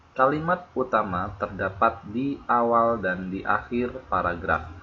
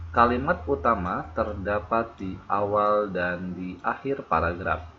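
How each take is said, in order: The two takes are said the same way.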